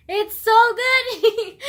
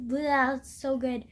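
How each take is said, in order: First: Much higher, louder and very slow; excited gush. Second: Said in the usual way. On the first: Real, not acted. Gushing to viewers about a favourite book. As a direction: burst out with delight over the book.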